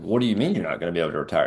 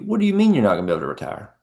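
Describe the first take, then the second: First: It sounds harsh and interrogating. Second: It sounds curious and gently concerned. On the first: The asker is grilling the other person. The speaker calls it wrong. "You're not interrogating them" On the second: The asker genuinely wants to understand the problem. The speaker calls it right. "you're getting curious, a little bit concerned"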